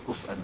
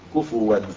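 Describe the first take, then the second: First: A glottal stop follows the f, with no vowel. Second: A u vowel follows the f, then a w. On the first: "كما هو في قراءة حمزة وخلف" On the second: "بضم الفاء"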